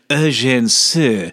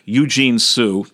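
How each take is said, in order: First: The name is said with a French pronunciation. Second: The name is said with an English pronunciation. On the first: "if you'll forgive my bad French" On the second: "That's the English pronunciation"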